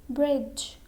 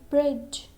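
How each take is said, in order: No difference in how they are said.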